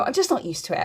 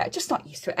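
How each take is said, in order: First: Said in the usual way. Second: A soft unvoiced echo of the line; whispered repeat. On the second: Real, not acted. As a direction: whisper it to yourself. Repeats line, second time whispered.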